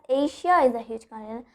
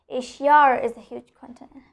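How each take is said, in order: First: No R sound links Asia to is. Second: An R sound links Asia to is. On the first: The speaker calls it wrong. "I'll not pronounce it as" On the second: The speaker calls it right. "I'll tell it as"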